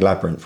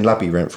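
First: The word is said with two syllables. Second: The word is said with three syllables. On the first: "which would have two syllables" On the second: "which would have three syllables"

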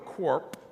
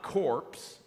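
First: The word ends with a P sound only. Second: The word ends with both P and S sounds. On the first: "So it's not corpse or corp in that regard" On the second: "So it's not corpse or corp in that regard"

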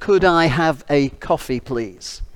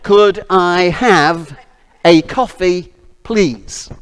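First: The request is spoken at a normal pace. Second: The request is spoken noticeably more slowly.

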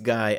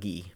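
First: The name is said in an English way. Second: The name is said in a French way. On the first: The person is not French Canadian. "He's not Canadian, so it's Guy" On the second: The person would be French Canadian. "and not Guy. If he was Canadian, it might be Guy"

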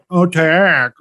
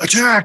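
First: It is said sarcastically, in a mocking tone. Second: It is said as an earnest command.

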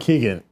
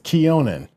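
First: The name is said like 'Keegan'. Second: The name is said like 'Keonan'. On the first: The speaker calls it wrong. "You keep saying Keegan" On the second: The speaker calls it right. "It's Keonan"

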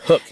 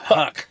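First: The vowel sounds like the one in book. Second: The vowel sounds like the one in duck. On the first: The speaker calls it right. "it's H-U-K, hook" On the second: The speaker calls it wrong. "Not huck"

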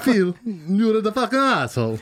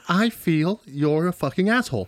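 First: It is said in an Italian accent. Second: It is said in his plain accent.

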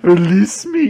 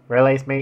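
First: The voice is expressive and dramatic, not flat. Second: The voice is flat and monotone. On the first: "Can I hear the first one again?" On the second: "I'll do it again then"

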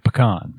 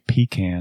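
First: The first syllable does not sound like 'pee'. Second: The first syllable sounds like 'pee'. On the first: The speaker calls it right. "I say pecan" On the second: The speaker calls it wrong. "I don't say pecan"

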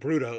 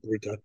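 First: The middle consonant sounds like a D. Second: The middle consonant sounds like a T. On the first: The speaker calls it wrong. "more like a D sound instead of T" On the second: The speaker calls it right. "I should have said Bruta"

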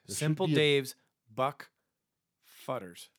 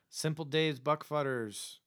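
First: The phrase is said slowly. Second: The phrase is said quickly. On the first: The speaker calls it right. "We need to slow it down" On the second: The speaker calls it wrong. "That was a little fast"

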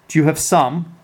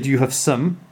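First: The final 'some' is said fully, with a strong vowel. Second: The final 'some' is reduced, with a weak schwa vowel. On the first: The speaker calls it right. "You would say" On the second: The speaker calls it wrong. "You don't say"

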